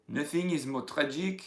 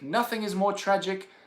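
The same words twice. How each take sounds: First: It is spoken with a put-on French accent. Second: It is spoken in the speaker's normal accent. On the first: "I'll do it in a French accent" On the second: "I'll do it in English first"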